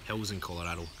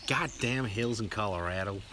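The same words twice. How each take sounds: First: Said in the usual way. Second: Slow, put-on American drawl; American accent. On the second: Shown as a demonstration. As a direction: do your best American accent. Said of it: "do your best American accent".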